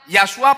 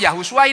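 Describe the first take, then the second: First: No vowel is heard between 'Yah' and 's'. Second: A 'u' vowel is heard between 'Yah' and 's'. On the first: The speaker calls it wrong. "Bukan Yahsua" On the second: The speaker calls it right. "dibacanya apa saudara ngerti? Yahusua"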